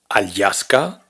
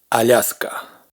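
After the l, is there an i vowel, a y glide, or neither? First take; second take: y glide; neither. First: A separate y glide follows the l. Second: A soft l runs straight into a. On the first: The speaker calls it wrong. "No es Alyaska" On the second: The speaker calls it right. "sino Alaska"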